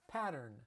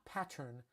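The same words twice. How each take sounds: First: It is said in a Los Angeles accent. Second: It is said in a different, non-Los Angeles accent. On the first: "So I say pattern" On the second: "not pattern"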